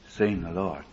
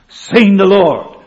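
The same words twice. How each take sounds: First: It is said flatly, without enthusiasm. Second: It is said with joyful, fiery enthusiasm. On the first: The speaker is unmoved by what was seen. The speaker calls it wrong. "They didn't say it like this" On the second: The speaker is thrilled by what was seen. The speaker calls it right. "It was the joy. It was the reality. It was the fire. It was the enthusiasm"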